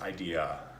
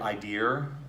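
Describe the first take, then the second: First: The word ends without any R sound. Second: The word ends with an added R sound. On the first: The speaker calls it right. "but it's idea" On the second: The speaker calls it wrong. "don't do idea, ... that R sound"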